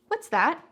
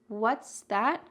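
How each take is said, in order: First: Only one word carries strong stress. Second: Both words carry equal strong stress. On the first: The speaker is asking what an object is. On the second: The speaker did not understand and wants it repeated.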